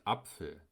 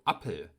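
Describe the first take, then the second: First: Said in the usual way. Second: "Appel" with a plain p, no f; Central German p. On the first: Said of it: "statt Apfel". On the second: Shown as a demonstration. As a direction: say "Appel", the pf reduced to p. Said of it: "das P F in Wörtern wie Apfel als P".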